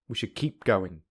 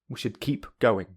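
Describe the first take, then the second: First: Keep and going run together smoothly. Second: Keep and going are said separately. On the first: "secondly with linking" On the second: "Firstly without linking"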